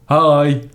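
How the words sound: It is said in a deep voice.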